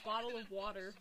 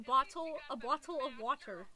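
First: The T sounds are soft and sound like D. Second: The T sounds are crisp and clearly released. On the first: This is how people from Michigan say it. "since we're from Michigan, we say bottle of water. So it's a D" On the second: This is the standard way to say it. "That is proper English"

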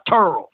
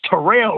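First: The name is said with one syllable. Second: The name is said with two syllables. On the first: The speaker calls it wrong. "not Turl" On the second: The speaker calls it right. "It's Terrell"

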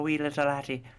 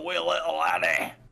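First: An Irish accent, placed high in the voice. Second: A Scottish accent, placed low in the voice. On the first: "Irish is more up here" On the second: "Down here"

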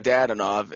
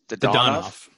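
First: The stress is not on the second syllable. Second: The stress is on the second syllable. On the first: The speaker calls it wrong. "I was saying Dadanov" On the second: The speaker calls it right. "the correct pronunciation is Dodonov"

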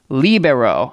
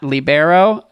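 First: The stress is on the first syllable. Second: The stress is on the second syllable. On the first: The speaker calls it right. "The emphasis is on the first and third vowel" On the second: The speaker calls it wrong.

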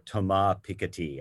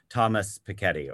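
First: The name is pronounced with French sounds. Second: The name is pronounced with English sounds. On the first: "or Thomas Piketty, as I will try to call him when he appears" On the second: "the French economist Thomas Piketty"

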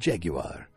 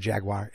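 First: It is said in a fancy British way. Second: It is said in a plain American way.

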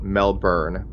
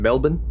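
First: Melbourne is said with a North American pronunciation. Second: Melbourne is said with an Australian pronunciation.

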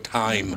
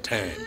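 First: It is said in a careful, standard pronunciation. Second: It is said in a casual, dialect pronunciation. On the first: The speaker is consciously correcting the habit. "Unless I think about it, and then I go" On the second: This is how the speaker naturally says it. "I say time"

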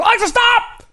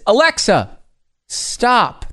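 First: The two words run together with no pause. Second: A slight pause separates Alexa and stop.

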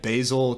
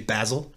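First: Basil is said with an American accent. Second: Basil is said with a British accent.

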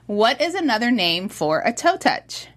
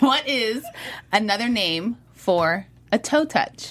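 First: The question is read at normal speed. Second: The question is read more slowly.

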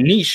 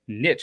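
First: The word has a long 'ee' vowel, ending 'eesh'. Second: The word rhymes with 'rich', ending in 'itch'. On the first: "which should have at least an S and some double E's" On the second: "it looks like niche. It says rich in it"

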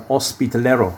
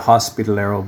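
First: The word is said with a Spanish accent. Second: The word is said with an English accent. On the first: The speaker calls it right. "I'm pronouncing that in the Spanish way" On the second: The speaker calls it wrong. "Canadians would say hospitalero, but the Spanish wouldn't understand that"

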